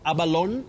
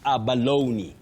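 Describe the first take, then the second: First: The final E is silent. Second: The final E is sounded as ee. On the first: The speaker calls it wrong. "Not abalone" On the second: The speaker calls it right. "It takes that sound E"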